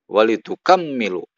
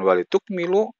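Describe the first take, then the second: First: The middle m is doubled and lengthened. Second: The middle m is short, without doubling. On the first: "wat tasydid itu bisa dengan" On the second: "bitakhfif itu disebutkan"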